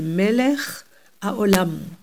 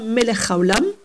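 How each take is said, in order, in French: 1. Les deux mots sont clairement séparés. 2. Les deux mots sont collés ensemble. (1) "mais Melech Haolam" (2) "Pas Melech Haolam"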